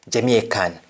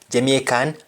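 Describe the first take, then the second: Both takes have the same delivery.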